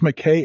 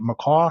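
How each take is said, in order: First: The last syllable sounds like 'kay'. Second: The last syllable sounds like 'caw'. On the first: "I think it's McKay" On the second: "or is it McCaw?"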